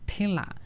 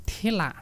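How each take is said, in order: No difference in how they are said.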